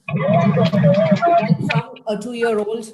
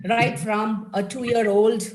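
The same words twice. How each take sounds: First: Put-on much higher, slow and louder, like a tiny child; playful high child voice; mock toddler voice. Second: Said in the usual way. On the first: Shown as a demonstration. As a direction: stretch it out in a squeaky little-kid voice.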